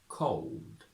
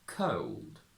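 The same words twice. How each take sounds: First: The vowel starts with a rounded O before L. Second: The vowel starts with a neutral schwa before L. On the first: "From traditional to modern" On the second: "From traditional to modern"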